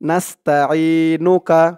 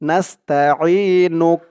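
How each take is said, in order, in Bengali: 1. শব্দটি শেষ হয়েছে স্বরধ্বনি 'a' দিয়ে। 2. শব্দটি শেষ হয়েছে ব্যঞ্জন 'k' দিয়ে। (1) "এটা লেখা আছে।" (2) "থামলে এখানে উচ্চারণ করতে হবে নাস্তাঈনুক"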